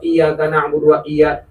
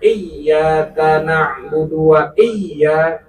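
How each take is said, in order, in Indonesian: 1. Huruf yang ganda dibaca pendek. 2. Huruf yang ganda dibaca panjang. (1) "itu kagak dibaca tasdidnya" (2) "tasdidnya dibaca benar"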